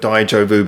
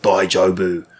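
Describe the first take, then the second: First: Said in the usual way. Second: Put-on English accent. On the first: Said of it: "he says the word Daijobu". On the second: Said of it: "he says it in the most English way possible".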